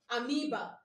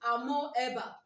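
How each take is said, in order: First: Amoeba said a-MEE-ba, no O sound; right pronunciation. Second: Amoeba said a-mo-E-ba, O and E both sounded; spelling pronunciation. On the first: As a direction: say Amoeba with "oe" as a long ee. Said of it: "The right pronunciation is". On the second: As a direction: say Amoeba as it is written, a-mo-eh-ba. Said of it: "But why not pronounce it what?". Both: Shown as a demonstration.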